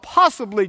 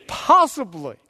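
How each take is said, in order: First: Said in the usual way. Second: "Possibly" drawn out slowly; emphatic repeat. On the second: Real, not acted. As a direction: stretch "Possibly" to underline the doubt.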